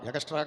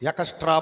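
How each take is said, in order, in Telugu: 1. ఈ పదాన్ని g శబ్దంతో పలుకుతారు. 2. ఈ పదాన్ని k శబ్దంతో పలుకుతారు. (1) "ఎకస్ట్రా కాదు" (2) "కా పలకాలి"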